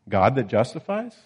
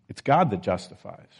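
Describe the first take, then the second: First: It is said as a rising question. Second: It is said as a falling statement.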